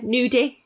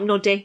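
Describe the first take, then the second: First: The first vowel is long, as in 'new'. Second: The first vowel is short, as in 'nut'. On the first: "yeah, nudie" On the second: "but not nuddy"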